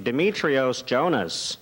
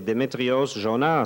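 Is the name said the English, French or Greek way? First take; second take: English; French. First: The name is said with English pronunciation. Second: The name is said with French pronunciation. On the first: He is singing for English speakers. "Si je chante pour des anglophones" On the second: He is singing for French speakers. "Quand je chante pour des francophones"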